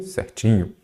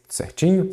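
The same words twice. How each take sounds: First: "Certinho" falling, at normal pitch; confirming answer. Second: "certinho" rising high as a question; checking question. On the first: Answers own checking question. ("Certinho" em tom descendente de confirmação) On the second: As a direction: lift "certinho" sharply to check they follow. Checking question, then own answer. ("certinho" em tom agudo de pergunta) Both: Shown as a demonstration.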